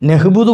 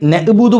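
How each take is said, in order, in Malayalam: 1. ആദ്യ സ്വരത്തിന് ശേഷം h ശബ്ദം വരുന്നു. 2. ആദ്യ സ്വരത്തിന് ശേഷം glottal stop വരുന്നു. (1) "നഹ്ബുദു പറയുന്ന ആളുകളുണ്ട്" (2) "ചിലത് നഅ്ബുദു ഹംസ് പറയലുണ്ട്"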